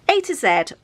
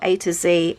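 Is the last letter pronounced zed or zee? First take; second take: zed; zee. First: Z is said as zed, British style. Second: Z is said as zee, American style.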